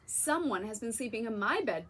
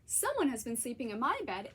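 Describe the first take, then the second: First: It is bellowed in a deep bear voice. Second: It is squeaked in a high little voice.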